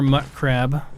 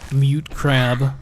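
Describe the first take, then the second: First: The first word sounds like 'mutt'. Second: The first word sounds like 'mute'. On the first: It follows how other people say it. The speaker calls it wrong. "I say mutt crab because I hear other people say mutt crab" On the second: It follows the correct pronunciation. The speaker calls it right. "mute crab is the correct way of pronouncing it"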